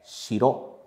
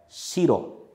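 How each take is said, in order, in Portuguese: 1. Tem o padrão de acento tonal de 'castle'. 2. Tem o padrão de acento tonal de 'white'. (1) "a pronúncia da palavra é shiro" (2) "a pronúncia dessa palavra é shiro"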